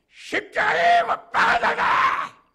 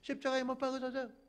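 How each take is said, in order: First: It is shouted in a furious, raging tone. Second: It is said in a calm, plain tone.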